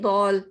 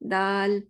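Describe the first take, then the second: First: The vowel is said with rounded lips. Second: The vowel is said with an open mouth. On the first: The speaker calls it wrong. "ऐसे नहीं दौल" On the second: The speaker calls it right. "दाल माउथ कैसे ओपन होगा?"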